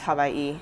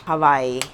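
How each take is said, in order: First: It is pronounced the native Hawaiian way. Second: It is pronounced the usual English way. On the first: The name is said as it is in its own language. The speaker calls it right. "I like to say the names as it is" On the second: The name is changed to fit another language. The speaker calls it wrong. "It's not Hawaii"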